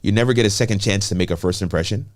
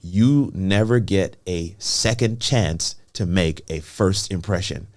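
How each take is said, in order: First: It is said at a normal pace. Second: It is said slowly.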